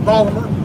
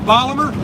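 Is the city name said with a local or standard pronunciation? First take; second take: local; standard. First: The name is said in a clipped local accent. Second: The name is said in a standard, careful pronunciation. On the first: "If you're from Baltimore, you say" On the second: "That's the proper way to say it"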